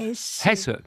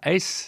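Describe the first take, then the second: First: It is said the German way, with every letter sounded. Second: It is said the French way, with no h sound. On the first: The speaker calls it right. "comme en allemand toutes les lettres se prononcent, ça sera Hesse" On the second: The speaker calls it wrong. "ça ne sera pas S"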